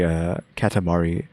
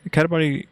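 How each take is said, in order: First: Said in the usual way. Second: Katamari called out high and bright; excited. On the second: Real, not acted. Repeats game name excitedly.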